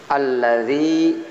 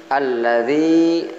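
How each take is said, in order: No difference in how they are said.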